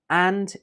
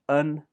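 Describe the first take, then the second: First: The word has a full, strong vowel. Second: The word has a weak uh vowel.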